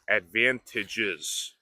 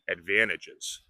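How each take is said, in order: First: The word is said carefully with every sound full. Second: The word is said quickly with reduced sounds. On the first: "instead of advantages" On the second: "when we speak quickly, sometimes we say advantages"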